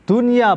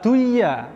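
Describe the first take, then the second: First: The n sound is pronounced clearly. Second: The n sound is merged away. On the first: The speaker calls it right. "tidak dibaca dengung" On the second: The speaker calls it wrong. "bukan duya"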